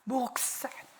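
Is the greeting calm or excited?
excited. It is an eager, excited call.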